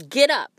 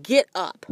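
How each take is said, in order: First: Spirit yelling, higher and louder; yelled command. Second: Firm spirit command, a touch louder; lightly voiced male spirit ordering her up; spirit's male voice. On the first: Retold or imitated. Spirit yelling at her to get out of bed. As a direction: bark it like a wake-up order. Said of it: "Like, yelled". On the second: Spirit waking her in bed with a firm command. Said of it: "and it was a male voice".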